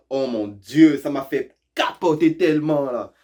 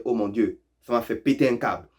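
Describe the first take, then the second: First: A hint of someone freaking out, pitch raised; mock excitement. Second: Said in the usual way. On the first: Learner overhears someone excitedly freaking out, mock excitement. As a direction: play up the shock lightly. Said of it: "si t'entends quelqu'un dire". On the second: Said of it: "il est en train de dire".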